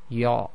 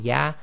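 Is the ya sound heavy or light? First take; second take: heavy; light. First: The ya sound is heavy and thick. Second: The ya sound is light and thin. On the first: The speaker calls it wrong. "they make the ya heavy" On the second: The speaker calls it right. "instead of saying ya"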